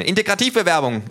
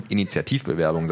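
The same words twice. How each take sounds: First: Integrativbewerbung yelled high and loud; wrong word shouted. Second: Said in the usual way. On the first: Acted. Thug gets the word wrong.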